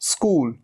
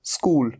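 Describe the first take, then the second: No difference in how they are said.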